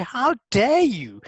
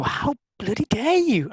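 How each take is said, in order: First: High, very slow How dare you, the bloody dropped; a prim, stretched-out outrage; mock-polite offended voice; polite indignation. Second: High, slow, outraged How bloody dare you; mock fury at a friend; drawn-out indignant cry; indignant outburst. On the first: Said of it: "That is me being polite". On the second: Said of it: "And I would go".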